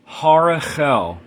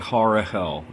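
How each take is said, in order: First: The middle consonant is a throaty ch sound. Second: The middle consonant is a plain h sound. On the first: "for the proper pronunciation, it's a Ch" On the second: "If you have trouble pronouncing that, you can just say"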